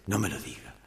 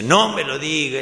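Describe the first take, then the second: First: Low, soft voice from inside; a subdued, low-pitched plea; muted objection. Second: Higher, loud protest from inside; acted loud objection; exasperated outburst. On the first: Acted. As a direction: quietly protest from inside the booth. Joke's hidden voice, first objection. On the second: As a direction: cry out in protest from the booth. Hidden voice objects, now louder.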